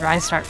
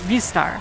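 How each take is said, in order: First: The first syllable sounds like 'rye'. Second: The first syllable sounds like 'ree'. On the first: The speaker calls it wrong. "Why did I say Rystar?" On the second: The speaker calls it right. "even though it's Ristar"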